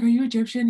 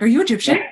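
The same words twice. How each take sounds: First: Loud, high retold question; excited question. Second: Loud, high, eager question; excited question. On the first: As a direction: eagerly repeat the question. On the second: Retold or imitated. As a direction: blurt it out in excitement. Retelling excited question to coworker.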